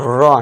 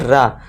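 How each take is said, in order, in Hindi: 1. स्वर गोल होठों वाली 'aw' ध्वनि है। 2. स्वर खुली 'ah' ध्वनि है। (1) "लास्ट एग्जाम्पल रॉ" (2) "ना कि रा"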